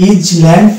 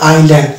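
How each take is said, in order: First: An s sound is pronounced in the middle. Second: No s sound is heard in the middle. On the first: The speaker calls it wrong. "আমরা এটা যদি বলি ইজ ল্যান্ড তাহলে কিন্তু রং pronunciation হয়ে যাবে" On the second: The speaker calls it right. "এটার actual pronunciation হচ্ছে আই ল্যান্ড"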